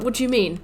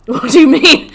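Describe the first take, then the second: First: Said in the usual way. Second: Loud, higher outraged repeat; angry disbelief. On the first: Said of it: "And I'm like". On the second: Retold or imitated. Gamer shouting at the game for killing him. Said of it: "I was so angry".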